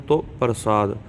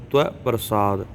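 First: ਤੋ said as a plain round "to"; no w-glide in ਤੋ, just t and o; ਤੋ with a simple "o" vowel; alternative pronunciation. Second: ਤਵੈ said as one gliding "twai" syllable; ਤਵੈ with an open "ai" ending; traditional reading. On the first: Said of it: "ਇਹ ਵੀ ਕਹਿ ਸਕਦੇ ਹਾਂ". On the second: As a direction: glide from t through w into "ai" in ਤਵੈ. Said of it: "ਸੰਪਰਦਾਈ ਪਾਠ ਏਦਾਂ". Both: Shown as a demonstration.

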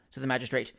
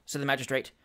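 Both takes have the same delivery.

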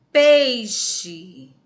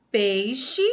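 First: "Peixe" with a loud, long "pei"; stress on PEI. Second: "Peixe" louder, quicker, rising at the end; shorter stressed word. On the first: Teacher showing the stronger syllable, "Peixe" loudly drawn out on "pei". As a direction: punch and stretch the "pei" in "Peixe". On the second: Teacher repeating the example for pupils, "Peixe" firm, short and rising. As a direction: say "Peixe" firmly and briefly, with a lift. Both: Shown as a demonstration. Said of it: "É a sílaba mais forte".

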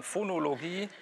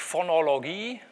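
First: Said in the usual way. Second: Phonologie with long stressed vowels in every syllable; wrong pronunciation demo. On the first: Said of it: "sondern Phonologie". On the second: Shown as a demonstration. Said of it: "das heißt auch nicht Phonologie".

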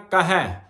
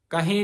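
First: ਕਹੈ said kahai with an open ai and nasal dot, louder; correct pronunciation. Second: ਕਹੇ said kahe with a plain e, the wrong way; wrong pronunciation. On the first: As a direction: give the right ਕਹੈ clearly. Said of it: "ਦਲਾਵਾਂ ਲੱਗੀਆਂ ਤੇ ਬਿੰਦੀ". (ਸਹੀ ਉਚਾਰਨ ਕਹੈ) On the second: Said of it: "ਕਹੇ ਨਹੀਂ ਕਹਿਣਾ". (ਗਲਤ ਉਚਾਰਨ ਕਹੇ) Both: Shown as a demonstration.

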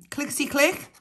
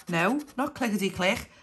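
First: High sing-song bingo call "Clickety click"; bingo caller. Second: Said in the usual way. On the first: Acted.

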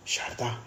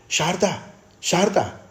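First: Said in the usual way. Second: High, loud cry of her name; shouting. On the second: A narrator's reading. Brother tries to rouse his unconscious sister, shouting. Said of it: "તેણે બૂમ પાડીને કહ્યું".

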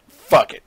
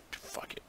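First: Loud, frustrated shout. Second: Breathy whispered curse. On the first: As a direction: bark it out in frustration. Shouted after whispering. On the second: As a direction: drop it to a whisper under your breath. Whispered, then shouted. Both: Real, not acted.

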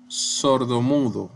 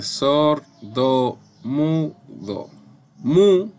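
First: Said in the usual way. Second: Slow, broken-up "Sordomudo" with an emphatic "Mu"; stress on MU. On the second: Shown as a demonstration. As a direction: sound out "Sordomudo" slowly, punching "Mu". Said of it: "es la sílaba tónica".

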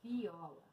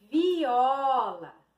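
First: Very low, hushed "Viola"; soft repeat. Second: Stretched model "viola"; drawn-out word reveal. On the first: Real, not acted. Teacher echoing the word to herself, very soft. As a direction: repeat it under your voice. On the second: Shown as a demonstration. Teacher revealing a word to pupils, drawn out. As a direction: present it clearly, lengthening the vowels.

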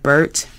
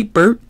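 First: Said in the usual way. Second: Higher, louder Ernie calling. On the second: Acted. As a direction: call out his friend's name brightly. Ernie calls Bert.

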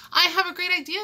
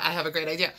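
First: High, loud burst of excitement; excited, ringing announcement; exclaiming. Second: Said in the usual way. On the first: A narrator's reading. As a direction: exclaim it like a sudden brainwave. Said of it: "exclaimed Kansas".

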